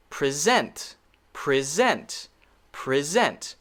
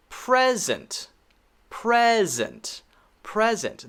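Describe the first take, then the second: First: Pre-SENT, short first syllable, full SENT; stress on second syllable. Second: PRES-ent, high first syllable, then falling; stress on first syllable. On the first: Teacher shows learners the verb, second-syllable stress on pre-SENT. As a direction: land on the SENT in "present". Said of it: "we should stress the second". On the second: Teacher shows learners the noun, first-syllable stress on PRES-ent. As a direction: punch the PRES in "present". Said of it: "nouns stress the first syllable". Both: Shown as a demonstration.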